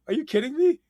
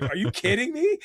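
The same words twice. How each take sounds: First: Even higher, louder squeal of disbelief; repeating the reaction with more excitement; higher thrilled shriek. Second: High, loud squeal of disbelief; reliving the moment of spotting the snake; thrilled disbelief. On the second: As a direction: shriek it like you can't believe your luck. Retelling finding the rare python. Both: Retold or imitated.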